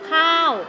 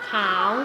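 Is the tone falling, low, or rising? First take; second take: falling; rising. First: The word is said with a falling tone. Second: The word is said with a rising tone. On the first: "เสียงโท" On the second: "เสียงจัตวา"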